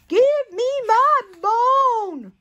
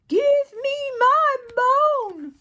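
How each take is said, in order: First: The line is said more loudly. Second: The line is said more quietly.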